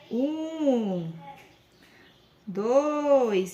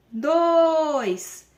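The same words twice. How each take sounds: First: "dois" drawn out calmly and patiently; slow patient count. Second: Put-on hurried high, loud "dois" like an anxious child; rushed count. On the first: Shown as a demonstration. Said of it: "vamos contar mais devagar". ("dois" devagar e com paciência) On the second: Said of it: "eles começam assim". ("dois" apressado de criança ansiosa)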